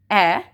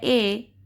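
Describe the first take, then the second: First: "ए" as a short open "eh", like a in stamp; short vowel sound. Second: "ए" as the letter name "ay"; long vowel, letter name. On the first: Teacher showing short form of A, "ए" as open "eh". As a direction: say "ए" as the letter's sound, not its name. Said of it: "we will say the sound". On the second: Teacher giving long form of A, "ए" as "ay". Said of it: "name of the letter क्या है". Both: Shown as a demonstration.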